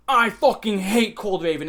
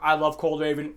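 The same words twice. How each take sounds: First: Loud, slow, emphatic hate rant; hammed-up loathing; mock hater. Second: Imitated fan. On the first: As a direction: imitate an outraged video maker, leaning on each word. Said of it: "people make YouTube videos". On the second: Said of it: "people make YouTube videos like".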